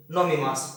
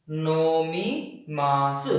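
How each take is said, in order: First: Said in the usual way. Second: Nomi मास stretched very slowly; teacher spelling it out slowly; slow careful. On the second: Shown as a demonstration. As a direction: drag out each syllable. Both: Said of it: "यानी कि".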